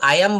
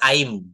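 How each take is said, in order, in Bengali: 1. I am পূর্ণ দুটি শব্দ হিসেবে বলা হয়। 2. I am একটিমাত্র সিলেবলে মিশিয়ে বলা হয়। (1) "আই অ্যাম বলা যাবে না" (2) "এটা বলতে হবে আইম"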